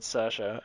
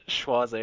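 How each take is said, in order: First: The name sounds like 'Seersha'. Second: The name sounds like 'Schwarzy'. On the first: This is the actual name as used in the film. The speaker calls it right. "one of the characters in that's called Saoirse" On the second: This is how the speaker once believed it was said. The speaker calls it wrong. "I always thought that name was pronounced Schwarzy"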